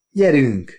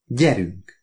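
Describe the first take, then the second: First: Higher, mildly imperious repeat; superior command. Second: Lightly voiced tough-guy command; a restrained movie-hero order; Humphrey Bogart. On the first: Oliver repeats his order to his wife, mildly superior. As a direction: repeat the order with lordly assurance. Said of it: "ismételtem olyan nyilvánvaló fensőbbséggel". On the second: Oliver orders his wife along, a hint of film tough guy. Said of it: "legszebb Bogart hangomon jelentettem ki". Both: A narrator's reading.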